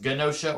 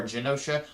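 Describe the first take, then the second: First: "Genosha" with a hard G, guh-NO-shuh; hard-G pronunciation. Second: "Genosha" with a soft G, juh-NO-shuh; soft-G pronunciation. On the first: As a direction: start "Genosha" like "gun". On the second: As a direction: start "Genosha" like "jump". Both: Shown as a demonstration. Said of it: "I don't know if it's pronounced".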